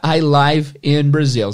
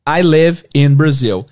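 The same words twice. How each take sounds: First: Live rhymes with five. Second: Live rhymes with give. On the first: The speaker is broadcasting live in Brazil. The speaker calls it wrong. "Nunca diga I live in Brazil" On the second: The speaker lives in Brazil. The speaker calls it right. "existe o verbo viver, que é live"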